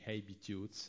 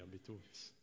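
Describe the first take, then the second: First: The word begins with an audible h sound. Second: The word begins directly with a vowel sound. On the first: The speaker calls it right. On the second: The speaker calls it wrong.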